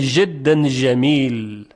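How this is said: The jim sounds are pronounced as zh. "در سوریه به جای اینکه جیم بگن ژ میگن"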